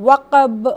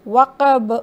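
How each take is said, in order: The two takes are said the same way.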